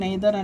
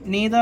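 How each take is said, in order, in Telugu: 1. మొదటి అచ్చు 'ay' లా పలుకుతారు. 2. మొదటి అచ్చు 'ee' లా పలుకుతారు. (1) "ఇది అసలు ప్రొనౌన్సియేషన్ నెయిదర్ అనేది ఉండదు" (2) "నీదర్ నీదర్ అనాలి"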